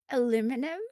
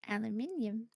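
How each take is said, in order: First: It has the American four-syllable pronunciation. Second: It has the British five-syllable pronunciation.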